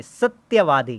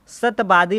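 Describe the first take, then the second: First: "सत्यवादी" with clear tya and v; correct form. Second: "सतवादी" as "sat-baadi", no y, b for v; wrong form. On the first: Teacher corrects the word, "सत्यवादी" said as satya-vaadi. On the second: Teacher reads the wrong word, "सतवादी" said as sat-baadi. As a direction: drop the y and say b in "सतवादी". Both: Shown as a demonstration. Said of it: "सतवादी नहीं".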